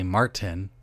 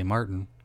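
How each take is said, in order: First: The middle T is clearly released. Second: The middle T is a glottal stop. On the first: "you hit the T" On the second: "it's a glottal stop"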